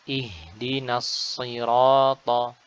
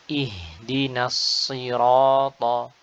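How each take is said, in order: The two takes are said the same way.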